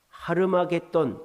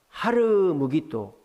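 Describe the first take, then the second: First: The name is said as Harmageddon. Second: The name is said as Har Megiddo. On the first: This is the Greek form of the name. "헬라식으로 발음하면 이제 아마겟돈이 되는 거예요" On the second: This is the Hebrew form of the name. "하르 무기또는 히브리어고"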